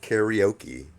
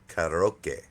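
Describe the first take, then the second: First: It is said with an American English pronunciation. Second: It is said with a Japanese-style pronunciation. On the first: The speaker calls it wrong. "it's not karaoke" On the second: The speaker calls it right. "if you want to be correct, it's karaoke"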